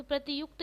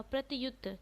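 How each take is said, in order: First: प्रत्युक्त ending in a kt cluster; the wrong प्रत्युक्त with k before t; wrong form pratyukt. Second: प्रत्युत ending in a plain t, no k; correct form pratyut. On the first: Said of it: "प्रत्युक्त नहीं होता". (गलत रूप प्रत्युक्त, क्त के साथ) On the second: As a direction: say प्रत्युत, pra-tyut. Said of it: "अपितु". (शुद्ध रूप प्रत्युत, बिना क) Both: Shown as a demonstration.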